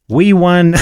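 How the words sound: It is said in a New York accent. "I went into like a New Yorker accent"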